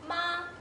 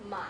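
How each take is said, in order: First: The pitch stays high and level. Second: The pitch dips low then comes up.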